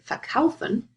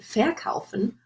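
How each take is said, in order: First: The stress is on the second syllable. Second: The stress is on the first syllable. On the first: The speaker calls it right. "you would say" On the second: The speaker calls it wrong. "you wouldn't say"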